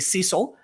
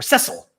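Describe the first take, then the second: First: The name is said the American way. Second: The name is said the British way. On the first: "Here in America, we say Cecil" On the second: "The Brits often say Cecil"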